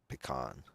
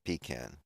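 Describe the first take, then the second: First: Pecan is said the American way. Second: Pecan is said the British way. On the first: "If you're American, you say pecan" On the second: "if you're British, you say pecan"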